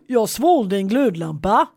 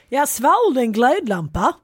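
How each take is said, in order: First: It is said in a Gothenburg accent. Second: It is said in an attempted Scanian accent. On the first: The speaker calls it right. "nu ska jag göra en bestämd göteborgska" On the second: The speaker calls it wrong. "Skånska"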